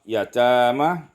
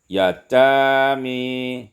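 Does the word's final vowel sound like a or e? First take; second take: a; e. First: The final vowel is an open a sound. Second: The final vowel leans toward an e sound.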